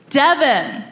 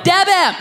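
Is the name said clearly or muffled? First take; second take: clearly; muffled. First: The name is said clearly. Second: The name sounds muffled, as through a full mouth.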